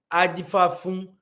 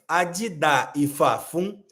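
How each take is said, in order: First: Several syllables are dropped from the phrase. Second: Every syllable of the phrase is pronounced.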